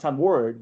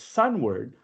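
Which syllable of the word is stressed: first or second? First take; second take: second; first. First: The stress is on the second syllable. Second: The stress is on the first syllable. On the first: The speaker calls it wrong. "it's not sunward" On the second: The speaker calls it right. "it's the first syllable that's accented"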